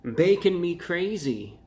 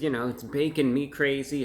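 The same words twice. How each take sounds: First: Slow, louder, higher dramatic read of "Bacon me crazy."; emphatic slogan read. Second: Said in the usual way. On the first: Shown as a demonstration. Reading the box slogan to viewers, slow and emphatic. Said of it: "right here for added emphasis". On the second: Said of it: "for added emphasis".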